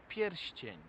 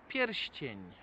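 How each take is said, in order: Both takes have the same delivery.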